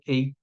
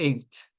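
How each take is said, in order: First: The word ends without a final T sound. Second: The word ends with a clear T sound. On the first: The speaker calls it wrong. "não vai ser pronunciado ei, porque aí é H" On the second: The speaker calls it right. "ele tem esse som de T"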